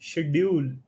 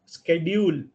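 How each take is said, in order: First: The word begins with a 'sh' sound. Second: The word begins with a 'sk' sound. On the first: "कुछ लोग उसको शेड्यूल पढ़ते हैं" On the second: "कुछ लोग उसको स्केड्यूल पढ़ते हैं"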